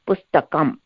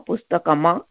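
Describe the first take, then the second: First: The word ends with a bare 'm' sound. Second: The word ends with a full 'ma' syllable. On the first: The speaker calls it right. "it's half chinna, it's ma" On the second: The speaker calls it wrong. "It's not the full ma, pustakama, it's not that"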